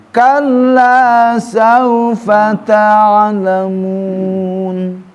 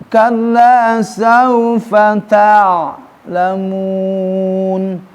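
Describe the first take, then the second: No difference in how they are said.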